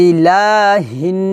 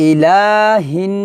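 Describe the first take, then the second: Both takes have the same delivery.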